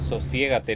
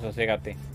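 First: The stressed syllable has the diphthong 'ie'. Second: The stressed syllable has the plain vowel 'e'. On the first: The speaker calls it right. "Es sosiégate" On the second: The speaker calls it wrong. "no soségate"

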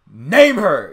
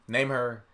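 First: It is said forcefully, almost screamed. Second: It is said calmly and casually.

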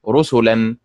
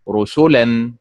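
First: The stress is on the first syllable. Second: The stress is on the middle syllable. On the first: The speaker calls it right. "الطريقة الصحيحة بالنبر على حركة الراء هكذا رسلا" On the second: The speaker calls it wrong. "ولا تنطق رسلا مثل فعل"

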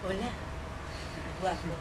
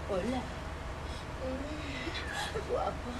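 First: It is said in a mildly flirtatious voice. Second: It is said in a very sultry, flirtatious voice.

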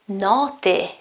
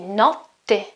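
First: The T sound in the middle is short. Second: The T sound in the middle is held long. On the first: "If the T, okay, wasn't double, it would be notte" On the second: "the T sound lasts a bit longer"

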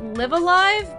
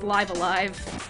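First: The first word rhymes with give. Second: The first word rhymes with five. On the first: This is the common pronunciation. The speaker calls it wrong. "people like to call it Live Alive" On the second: This follows the original Japanese title. The speaker calls it right. "in katakana it's like Raibu Araibu, so it's like, it's Live Alive"

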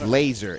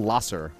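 First: The middle consonant is a buzzing z sound. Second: The middle consonant is a hissing s sound. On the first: The speaker calls it right. "It's laser" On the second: The speaker calls it wrong. "Why would you ever ride it with the S? ... It's not lasser"

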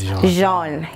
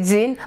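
First: The name is said the French way. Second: The name is said the Kenyan way. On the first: "but in French, it's Jean" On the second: "In Kenya, we say Jean"

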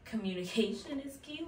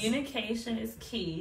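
First: It is said in a calm, ordinary voice. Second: It is said loudly with strong emphasis.

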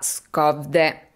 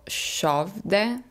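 First: The name is read with Italian-style sounds. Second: The name is said with Swedish-style sounds. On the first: The speaker calls it wrong. "la cui pronuncia non è questa" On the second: The speaker calls it right. "ma è tipo Skövde"

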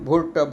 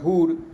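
First: The vowel is an 'o' sound. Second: The vowel is a 'u' sound.

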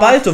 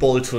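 First: The first vowel is an open 'a'. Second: The first vowel sounds like an 'o'. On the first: The speaker calls it right. "weil er mit A geschrieben wird" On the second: The speaker calls it wrong. "falsch, dass du Bolto sagst"

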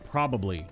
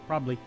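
First: The word is said in full, three syllables. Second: The word is shortened to two syllables. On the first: It is the standard form of the word. "which is the actual word" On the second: It is a casual, slangy way of saying it. "P-R-O-B, apostrophe, L-Y, probably"

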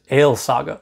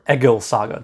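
First: The name is pronounced in modern Icelandic style. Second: The name is pronounced in reconstructed Old Norse style. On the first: "modern Icelandic" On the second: "reconstructed Old Norse"

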